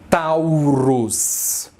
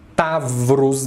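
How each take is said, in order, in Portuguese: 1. A primeira sílaba é falada com som de 'u'. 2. A primeira sílaba é falada com som de 'v'. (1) "pode ser tentado a pronunciar essa palavra como Taurus, mas não é Taurus que se fala" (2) "se ele for acentuado, ele tem som de V. Então aqui vai ficar Tavrus mesmo"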